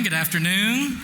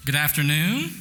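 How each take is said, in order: First: Higher, more enthusiastic good afternoon; a bigger, brighter hello to the room; livelier greeting. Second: Said in the usual way. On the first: Shown as a demonstration. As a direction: really greet the crowd this time. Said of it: "Try again". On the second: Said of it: "That's pitiful".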